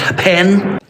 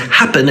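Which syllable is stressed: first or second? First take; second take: second; first. First: The stress is on the second syllable. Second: The stress is on the first syllable. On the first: The speaker calls it wrong. "it's not happen" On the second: The speaker calls it right. "the first syllable is strong. It's happen"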